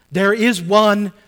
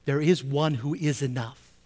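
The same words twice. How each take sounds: First: Much louder and slow, each word weighted; proclaimed. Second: Said in the usual way. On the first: Acted. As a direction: proclaim it slowly to the congregation. Preacher repeats key phrase.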